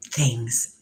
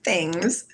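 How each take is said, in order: First: "Things." dropped low and drawn out; deep slow "Things". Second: "Things." through a chuckle, rising; laughing "Things". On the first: A low drawn-out "Things." mused to her viewers. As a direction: say "Things." low, letting it fall. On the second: A giggled "Things." echoing her own word to viewers. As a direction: laugh out "Things." lifting at the end. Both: Shown as a demonstration.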